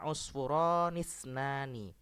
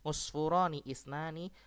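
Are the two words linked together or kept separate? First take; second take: linked; separate. First: The i vowel is dropped and words run together. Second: The second word starts with its own i vowel. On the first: "di sini harokat kasrohnya dihilangkan" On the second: "Boleh usfuroni isnani"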